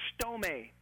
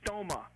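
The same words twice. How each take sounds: First: Stome in two syllables, STOH-may; stome, ending in an "ay" sound; Greek pronunciation. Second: Stoma as STOH-muh; stoma, anglicized with a final "uh"; English pronunciation. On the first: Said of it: "is the Greek word stome". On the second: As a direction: say stoma with an unstressed "muh" ending. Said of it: "We would probably pronounce it in English". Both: Shown as a demonstration.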